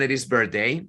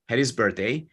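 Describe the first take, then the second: First: The h at the start of 'had' is dropped. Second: The h at the start of 'had' is pronounced.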